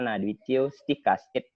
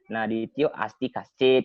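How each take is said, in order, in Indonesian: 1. Tidak ada vokal yang ditambahkan sebelum bunyi 'st'. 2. Ada vokal 'a' tambahan sebelum bunyi 'st'. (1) "bait kedua itu kan ada" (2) "tapi sering diucapkan"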